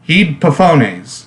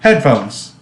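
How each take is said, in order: First: The word is pronounced in a deliberately distorted way. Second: The word is pronounced in the usual way. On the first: The speaker calls it wrong. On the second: The speaker calls it right.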